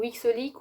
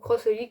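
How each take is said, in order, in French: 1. Un son x vient avant Holic. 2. Le mot cross vient avant Holic. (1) "ou X Holic" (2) "ou Cross Holic"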